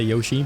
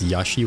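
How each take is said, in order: First: It uses the North American pronunciation of the name. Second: It uses the European, Japanese-like pronunciation of the name. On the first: "in North America, people say Yoshi" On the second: "in Europe, maybe it's Yoshi, which is pretty sure the correct way to say it actually in Japan"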